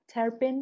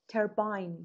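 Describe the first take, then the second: First: The second syllable sounds like 'ben'. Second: The second syllable sounds like 'bine'. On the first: "تربن یو اسشه" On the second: "یوکیش ترباین یوکیشه"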